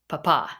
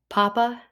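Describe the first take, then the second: First: The stress is on the last syllable. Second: The stress is on the first syllable.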